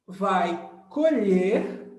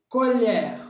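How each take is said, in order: First: Colher with closed e, like colhêr. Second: Colher with open e, like colhér. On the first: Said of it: "que é o som fechado". (colher com e fechado) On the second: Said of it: "o som aberto". (colher com e aberto) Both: Shown as a demonstration.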